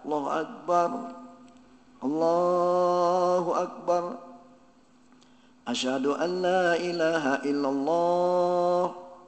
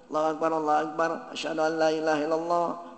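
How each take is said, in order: First: It is said slowly and drawn out. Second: It is said quickly, phrases run together. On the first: The speaker calls it wrong. "Jangan kayak adzan" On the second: The speaker calls it right. "cepat-cepat, fahdur"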